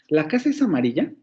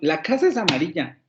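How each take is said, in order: First: It is said with a questioning intonation. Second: It is said with an exclamatory intonation. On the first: The speaker is asking whether it is so. "la puedo hacer como una pregunta" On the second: The speaker is surprised that it is so. "lo puedo hacer como una exclamación"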